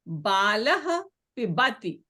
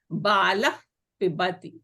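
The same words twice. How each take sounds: First: The word ends in a plain breathy h sound. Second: The word ends in a friction sound at the lips. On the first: "it remains as it is" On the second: "a upadmanya sound"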